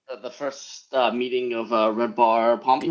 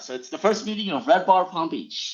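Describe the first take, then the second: First: It is said flatly and hesitantly. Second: It is said with lively enthusiasm.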